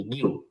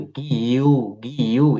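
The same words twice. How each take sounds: First: "গিউ" as one short gyu; merged into one syllable. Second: "গিউ" drawn out as gi-yu; separate syllables. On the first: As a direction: join "গিউ" into a single beat. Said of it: "এখন হয়েছে কি?". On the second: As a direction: pull "গিউ" apart into two long sounds. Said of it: "এরকম উচ্চারণ হতো।". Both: Shown as a demonstration.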